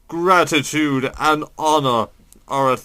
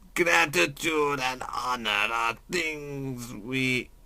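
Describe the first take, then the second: First: It is read in the speaker's normal voice. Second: It is read in a put-on character voice.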